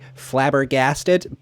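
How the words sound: It is said in an American accent.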